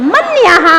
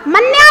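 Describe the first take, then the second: First: मन्यः ending in an echoed -ha; sounded visarga. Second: मन्या ending in long aa, no h; wrong manya ending. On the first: Teacher models the proper reading, मन्यः with breathed ha. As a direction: finish मन्यः as man-ya-ha. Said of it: "मन्या नहीं पढ़ना है". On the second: Teacher warns students off this reading, open-ended मन्या. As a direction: leave मन्या open, without the breathed echo. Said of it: "नहीं पढ़ना है". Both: Shown as a demonstration.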